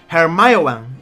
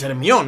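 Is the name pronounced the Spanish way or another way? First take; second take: another way; Spanish. First: The name is pronounced a non-Spanish way. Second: The name is pronounced the Spanish way. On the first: This is not how the name is said in Spain. "no es Hermione" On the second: This is how the name is said in Spain. "aquí en España es Hermión"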